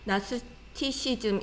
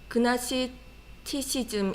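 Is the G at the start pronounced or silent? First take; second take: silent; pronounced. First: The word begins with an N sound. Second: The word begins with a hard G sound. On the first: "발음 안 하고" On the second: "G를 발음하고"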